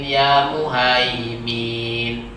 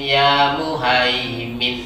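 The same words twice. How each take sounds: First: The final 'min' vowel is drawn out long. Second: The final 'min' vowel is short. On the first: The speaker calls it wrong. "Ada yang memanjangkan malahan" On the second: The speaker calls it right. "Minnya pendek"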